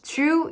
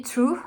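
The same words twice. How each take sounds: First: Said in the usual way. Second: Put-on older vowel in "true", before the vowel shift; "true" said with its former vowel; old pronunciation. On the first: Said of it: "used to be". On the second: Shown as a demonstration. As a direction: demonstrate how "true" used to sound. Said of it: "True used to be true".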